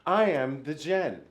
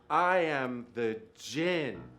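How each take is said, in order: First: It is spoken at a normal pace. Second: It is spoken slowly and deliberately.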